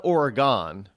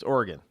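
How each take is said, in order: First: Oregon as OR-uh-GAHN, with a full final syllable; wrong Oregon. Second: Oregon as OR-gun, like "organ"; local Oregon. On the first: Showing outsiders' mistake, Oregon as or-uh-GAHN. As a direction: land on a long GAHN in Oregon. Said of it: "It's not Oregon". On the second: Correcting outsiders on the state, Oregon as OR-gun. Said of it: "It's Oregon". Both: Shown as a demonstration.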